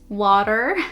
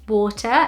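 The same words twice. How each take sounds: First: It is pronounced the American English way. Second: It is pronounced the British English way. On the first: "not water" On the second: "we also say water"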